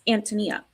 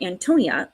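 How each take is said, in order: First: The name has a Czech pronunciation. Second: The name has an English pronunciation. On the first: "the Czech pronunciation is Antonia" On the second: "which is how I would say that name"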